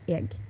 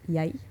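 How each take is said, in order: First: It begins with a vowel, final g audible. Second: It begins with a y sound, no final g. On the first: This is the west coast form. "as soon as you go to the west coast, it turns into egg" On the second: This is the southeastern Norway form. "a standardized word is yai"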